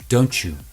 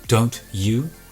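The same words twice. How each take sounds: First: The t and y merge into ch. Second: The t and y sounds stay separate. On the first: "So there's that ch, chew" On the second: "don't you becomes"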